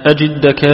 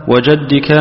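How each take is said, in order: First: "أجدك" with an i after the jim, ajiddaka; "أجدك" said with kasra, jidd not jadd. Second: "وجدك" with an a after the jim, wa-jaddika; "وجدك" said with fatha, jadd not jidd. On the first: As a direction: read "أجدك" as a-JID-da-ka. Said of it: "بالكسر". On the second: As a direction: read "وجدك" as wa-JAD-di-ka. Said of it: "فهو مفتوح". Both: Shown as a demonstration.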